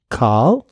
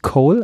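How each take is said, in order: First: The vowel is an open back 'ah' sound. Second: The vowel is a rounded 'o' sound. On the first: The speaker calls it right. "ein offenes, hinten liegendes A" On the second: The speaker calls it wrong. "vorne ist nicht Coal"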